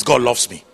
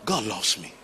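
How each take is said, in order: First: Shout. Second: Said in the usual way. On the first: Shown as a demonstration. Pastor leading the congregation to declare it, shouting. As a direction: proclaim it as a shout of faith. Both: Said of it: "jump up and shout it three times".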